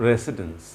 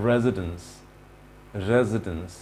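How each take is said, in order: First: "residence" with an s and full "dens"; wrong pronunciation. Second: "residence" with a z and reduced ending, lower; correct pronunciation. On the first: Teacher mimics the error for learners, mispronunciation. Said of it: "This is not". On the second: Teacher models the fix for learners, correct pronunciation. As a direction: say "residence" as "REZ-i-dns", pitched down. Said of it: "it should be". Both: Shown as a demonstration.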